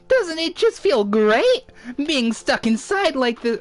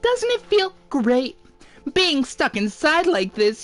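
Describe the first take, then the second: First: It is said in a different character voice. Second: It is said in Monokuma's character voice.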